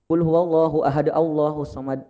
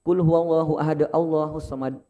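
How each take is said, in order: The two takes are said the same way.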